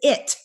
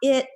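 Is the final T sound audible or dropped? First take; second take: audible; dropped. First: The final T sound is clearly heard. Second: The final T sound is dropped. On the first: The speaker calls it right. "I want to hear the T" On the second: The speaker calls it wrong. "It is not it"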